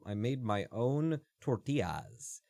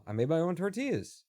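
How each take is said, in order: First: Slow "tortillas", ending in "tee-ahz"; drawn-out pronunciation. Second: Said in the usual way. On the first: Shown as a demonstration. Streamer telling viewers about homemade food, "tortillas" drawn out as "tor-tee-ahz". Same sentence redone two ways.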